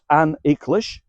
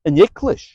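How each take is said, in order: First: The article is stressed and separate from the noun. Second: The article is unstressed and flows into the noun. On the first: The speaker calls it wrong. "with too much stress on the the" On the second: The speaker calls it right. "Notice how that flows together"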